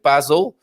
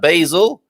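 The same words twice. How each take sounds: First: It is said with a British pronunciation. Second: It is said with an American pronunciation.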